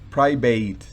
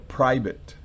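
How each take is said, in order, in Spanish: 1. La terminación es un sonido 'ate' completo y claro. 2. La terminación es un sonido 'it' corto y átono. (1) "No es private" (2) "sino private"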